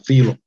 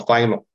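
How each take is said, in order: First: The name is said with a Greek pronunciation. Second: The name is said with an English pronunciation. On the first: "希腊文发音叫Philo" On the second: "英语发音叫Philo"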